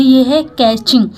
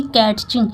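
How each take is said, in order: First: कैचिंग said with a silent t, kech-ing; correct pronunciation. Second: कैटचिंग said with a t before ch, ket-ching; wrong pronunciation. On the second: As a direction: sound the t in कैटचिंग to show the mistake. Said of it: "ना कि कैटचिंग". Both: Shown as a demonstration.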